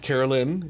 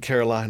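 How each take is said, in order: First: The last syllable rhymes with 'fin'. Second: The last syllable rhymes with 'fine'. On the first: The speaker calls it wrong. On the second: The speaker calls it right.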